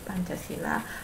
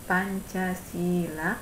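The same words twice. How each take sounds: First: The i vowel is held short. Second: The i vowel is held long. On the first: Five stone foundations. "dengan huruf I yang dibaca pendek" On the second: Five principles of virtuous conduct. "dengan huruf I yang panjang"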